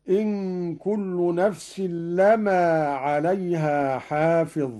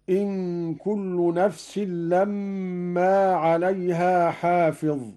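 First: لما with a single short m, "lamaa"; no doubling or hum on the م of لما; light mim. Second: لما with a long held double m, "lammaa"; doubled mim. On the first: Teacher showing Qalun's reading, لما with a light mim. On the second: Teacher citing the verse, لما with a doubled mim. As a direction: hum on the م of لما before opening it. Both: Shown as a demonstration. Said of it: "بتخفيف الميم هكذا".

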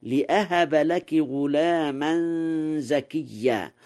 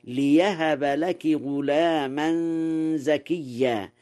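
First: لأهب with a hamza, li-ahaba; standard reading. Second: ليهب with an open ya, li-yahaba; Warsh reading. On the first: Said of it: "قوله تعالى". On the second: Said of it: "قرأ ورش". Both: Shown as a demonstration.

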